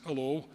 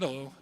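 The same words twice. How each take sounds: First: Put-on brief Manchester-accented greeting, rising at the end; light Manchester accent. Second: Said in the usual way. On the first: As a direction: greet like a Mancunian, lilting up. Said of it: "in a Manchester accent". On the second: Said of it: "And my son said".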